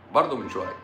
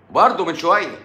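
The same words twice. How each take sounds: First: Said in the usual way. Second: High-pitched exclamation on "برضه من شوية"; exclaimed. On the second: Real, not acted. Reacting to what was just said, exclaimed high. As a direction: burst out with it, pitch up. Exclaims, then repeats it low.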